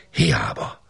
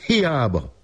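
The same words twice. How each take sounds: First: Whispered echo. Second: High lament. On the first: Narrator echoing the failed search in a hushed whisper. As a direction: let the word fade into a hushed whisper. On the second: Narrator laments the failed search. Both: A narrator's reading.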